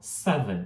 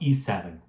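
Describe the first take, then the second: First: The word begins directly with the s. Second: A vowel sound comes before the s. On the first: The speaker calls it right. "A gente fala seven" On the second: The speaker calls it wrong. "a gente nunca vai falar e seven"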